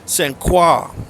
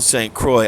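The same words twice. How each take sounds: First: The name is pronounced the French way. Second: The name is pronounced the local English way. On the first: This is the formally correct pronunciation. "the correct pronunciation of the words are Saint Croix" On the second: This is how locals casually say it. "Colloquially, it's called Saint Croix"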